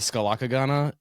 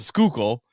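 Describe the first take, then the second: First: The name is said with many syllables. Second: The name is said with two syllables. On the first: This is a newcomer's guess from the spelling. The speaker calls it wrong. "I pronounced it when I first got here like the Skalakagana" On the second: This is how locals actually say it. The speaker calls it right. "but it's like it's the Schuylkill"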